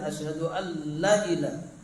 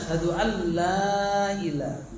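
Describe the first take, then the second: First: The vowel in 'la' is cut short. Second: The vowel in 'la' is held long. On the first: There truly is a god. The speaker calls it wrong. "Coba kalau pendekkan" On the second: There is no god. The speaker calls it right. "Yang benar adalah"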